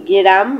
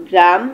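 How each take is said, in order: The two takes are said the same way.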